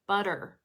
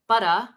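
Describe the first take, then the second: First: The word ends with an American, rhotic R. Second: The word ends with a British, non-rhotic R. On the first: "sometimes you use the American R" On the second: "sometimes you use the British R"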